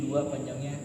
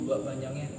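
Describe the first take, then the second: Both takes have the same delivery.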